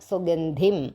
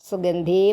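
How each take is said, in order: First: The final vowel is kept short. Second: The final vowel is drawn out long. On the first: The speaker calls it right. "അല്ലാതെ ഈം നീട്ടരുതേ" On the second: The speaker calls it wrong. "സുഗന്ധീം എന്നില്ല"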